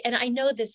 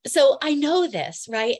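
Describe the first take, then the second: First: Said in the usual way. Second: Louder, slow and higher, really meaning it; emotional insistence. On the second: Real, not acted. Telling viewers she knows her history, emotional and emphatic. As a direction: lean hard on knowing it, stirred up. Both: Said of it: "tell I'm getting really emotional about this and excited".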